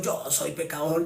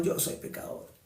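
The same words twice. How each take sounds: First: A light put-on sinner's voice, a little softer; lightly voiced humble sinner admitting it; imitating a sinner's resigned confession; mock sinner. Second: Breathy whisper of the same confession; echoing the sinner in a whisper; whispered repeat. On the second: Retold or imitated. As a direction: let it fall to a whisper. Sinner repeats, voice drops away.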